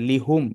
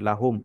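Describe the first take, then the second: First: The first vowel is an 'i' sound. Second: The first vowel is an 'a' sound. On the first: The speaker calls it wrong. "এটা পড়া একটু কঠিন" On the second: The speaker calls it right. "এটা জবর দিয়ে পড়া হচ্ছে"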